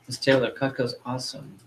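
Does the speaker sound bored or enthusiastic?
bored. It is said flatly, without enthusiasm. The speaker does not really believe it. The speaker calls it wrong.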